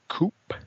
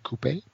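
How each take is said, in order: First: The word is said in an American way. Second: The word is said in a British way.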